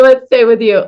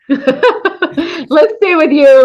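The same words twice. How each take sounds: First: Said in the usual way. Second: Slow, higher, laughing through the words; bashful laughing deflection. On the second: Real, not acted. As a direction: laugh off the praise.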